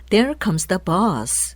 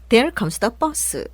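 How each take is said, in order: First: The vowel in bus is drawn out long. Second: The vowel in bus is clipped short. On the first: The speaker calls it right. "bus로 길게 발음이 되죠" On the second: The speaker calls it wrong. "짧게 발음하면 안 되겠죠"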